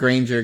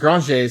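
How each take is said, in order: First: The name is said with an English pronunciation. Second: The name is said with a French pronunciation. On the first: This is how English speakers read the name. "they didn't pronounce it Granger because like that's not how it was pronounced in French" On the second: This is how the name was originally said. "how it was pronounced in French. It was Granger"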